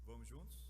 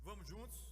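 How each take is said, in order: Both takes have the same delivery.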